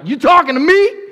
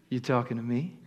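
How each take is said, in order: First: It sounds indignant and offended. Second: It sounds playful and flirtatious.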